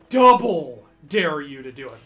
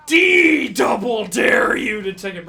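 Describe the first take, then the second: First: Said in the usual way. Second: Slow, loud, higher mock bully shout; big escalated dare. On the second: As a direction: boom out the ultimate dare.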